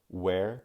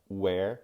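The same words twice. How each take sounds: No difference in how they are said.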